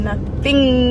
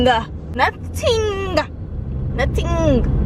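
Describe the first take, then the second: First: Said in the usual way. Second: "Nothing" pitched high and dragged out, falling; emphatic nothing. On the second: Shown as a demonstration. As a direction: stretch "Nothing" up high then drop it.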